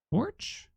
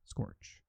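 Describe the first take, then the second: First: Scorch? flung up very high with a rising question; Scorch? in a high, unsure voice; high puzzled question. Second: Breathy whispered Scorch, clipped and low. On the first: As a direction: squeak Scorch? as a baffled question. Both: Shown as a demonstration.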